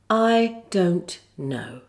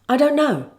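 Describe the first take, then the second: First: The phrase is said slowly and carefully. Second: The phrase is said quickly, dropping the t. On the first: "Say it slowly first, like this" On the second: "Now speed it up. ... Here you have the omission of T"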